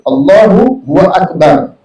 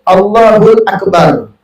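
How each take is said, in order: First: A W syllable is inserted between the words. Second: An L sound links the two words. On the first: "ada wawnya... Nah itu tak boleh" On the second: "hul hul, tidak batal, masih dimaafkan"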